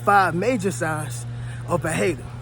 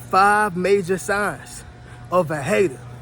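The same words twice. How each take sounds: First: It is said at normal volume. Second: It is said more loudly.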